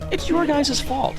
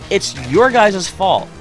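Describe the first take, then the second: First: It is said in a softer, gentler tone. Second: It is said in a harsh, blunt tone. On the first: The speaker calls it right. "it sounds less harsh" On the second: The speaker calls it wrong. "that sounds harsh when I say it like that"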